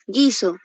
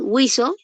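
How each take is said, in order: First: No 'u' sound is heard after the g. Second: A 'u' sound is heard after the g. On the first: The word has no diphthong. "está sonando así" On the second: The word has a diphthong. "si estuviese así, con diéresis"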